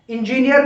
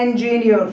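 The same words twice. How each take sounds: First: इंजीनियर said in-ji-ni-yar, every syllable full, hard r ending; इंजीनियर with a full final yar; wrong pronunciation. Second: इंजीनियर with a light neer ending; correct pronunciation. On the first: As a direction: spell out इंजीनियर as in-ji-ni-yar, the common mistake. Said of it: "इंजीनियर नहीं होता". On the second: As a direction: model इंजीनियर the right way as en-ji-NEER. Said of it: "ये होता है इंजीनियर". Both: Shown as a demonstration.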